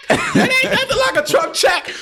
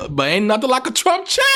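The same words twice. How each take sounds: First: Much higher and louder, crowing; delighted shouted boast; gleeful shout. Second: Said in the usual way. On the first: Acted. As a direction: shout it out like a hype man. Gleeful boast about money.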